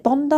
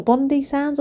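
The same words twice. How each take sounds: First: "Bondi" with a long i ending; Bondi ending in "eye". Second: "Bondi sands" with dee before sands; Bondi ending in "ee". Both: Shown as a demonstration. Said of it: "how you pronounce it".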